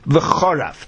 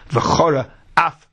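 First: The two words merge into one word. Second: The two words are kept apart. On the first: The speaker calls it wrong. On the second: The speaker calls it right.

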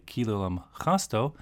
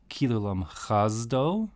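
First: The last word has an s sound. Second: The last word has a z sound. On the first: The speaker calls it right. "like a s samach sound" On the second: The speaker calls it wrong. "with like a z zion sound"

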